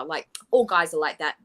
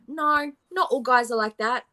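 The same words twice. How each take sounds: First: A lightly voiced, dismissive 'all guys are like that'; mock excuse. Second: 'not' hit firmly with a rising pitch; stress on not. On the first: Commentator mimicking the excuse, dismissive. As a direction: shrug it off as if it's normal. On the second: Commentator rejecting the excuse, stress on 'not'. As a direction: lean hard on 'not' to reject it. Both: Shown as a demonstration.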